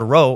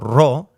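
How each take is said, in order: First: It is said with English pronunciation. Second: It is said with Greek pronunciation. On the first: This is the usual English name for the letter. "is called rho" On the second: This is how Greek speakers say the letter. "as the Greeks say"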